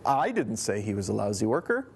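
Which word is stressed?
I. The stress is on the word I.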